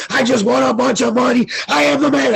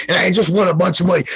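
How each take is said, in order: First: Hyped brag. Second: Rattled off fast, still at normal pitch; fast excited brag. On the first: Bragging live on Brosco's stream, excited higher yell. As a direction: crow about the win, climbing in pitch. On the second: Bragging live on Brosco's stream, fast excited blurt. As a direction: blurt the win out quickly. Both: Retold or imitated. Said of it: "I went nuts".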